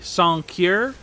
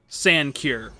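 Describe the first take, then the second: First: It is said with a French accent. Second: It is read out with a plain English accent. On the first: The word is treated as a French word. "with like a French accent" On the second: The word is read just as it looks.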